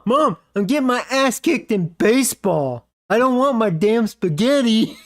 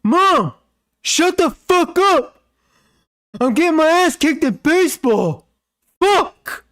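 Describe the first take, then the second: First: Mock kid yell. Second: High shrill-pitched furious yell at the dog; angry kid yelling. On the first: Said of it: "he's telling his mom". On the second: Retold or imitated. Gamer kid screaming at his barking dog, furious high yell. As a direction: scream it like a bratty kid losing it. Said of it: "He goes".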